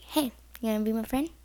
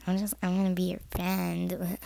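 First: Quick, casual, friendly invitation; nice voice. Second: Low, grudging mock offer of friendship; insincere friend. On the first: Shown as a demonstration. Showing how to befriend a bullied kid, nice voice. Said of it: "like, nice voice". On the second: Showing how not to befriend someone, mock insincere. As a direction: imitate someone who is not being nice. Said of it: "Don't be the f-, person that's like".

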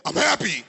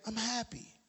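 First: Loud, punched-out burst; aggressive tone. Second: Very soft, unenthusiastic delivery; subdued tone. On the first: Preacher showing that tone changes meaning, loud and forceful. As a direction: belt it out forcefully. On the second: Teacher showing that tone changes meaning, very soft and subdued. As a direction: say it quietly, barely putting it out. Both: Shown as a demonstration. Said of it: "It's all in the tone".

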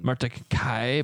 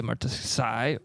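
First: "Myrtaceae" slowly as mar-tuh-kai, hard k; Latin pronunciation. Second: "Myrtaceae" as mar-tuh-sai, soft s; regular pronunciation. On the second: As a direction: say "Myrtaceae" with an English s sound. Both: Shown as a demonstration. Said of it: "It's always Latin".

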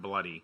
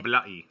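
First: Said in the usual way. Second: "bloody" in a mock-British accent; British-accented "bloody" with a crisp t; put-on British accent. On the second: Shown as a demonstration. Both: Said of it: "Those are two totally different things".

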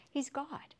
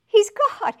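First: Said in the usual way. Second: He's God shouted high and loud; loud proclamation. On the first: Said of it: "He's God (repeated louder)". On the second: Shown as a demonstration. Preacher to congregation, booming He's God. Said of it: "He's God (first softer take)".

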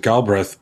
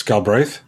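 First: "Galbraith" said as GAL-breth; "Galbraith" with a short "e" in the second syllable; mispronounced surname. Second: "Galbraith" said as gal-BRAYTH; "Galbraith" with a full "ay" in the second syllable; corrected surname. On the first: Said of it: "Speaking of mispronunciations, I've pronounced it". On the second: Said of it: "I've always mispronounced your name". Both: Shown as a demonstration.

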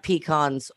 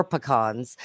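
First: "pecans" said PEE-kahnz; "pecans" as PEE-kahnz, first syllable like "pea"; first variant pronunciation. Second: "pecans" said puh-KAHNZ; "pecans" as puh-KAHNZ, weight on the second syllable; second variant pronunciation. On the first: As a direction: open "pecans" with a long "pee". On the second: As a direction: reduce the start of "pecans" to "puh". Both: Shown as a demonstration. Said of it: "pecans or pecans".

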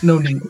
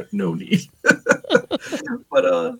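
First: Said in the usual way. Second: No need said through a chuckle; laughing. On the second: Real, not acted. Husband laughing at the joke about his wife. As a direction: repeat it laughing.

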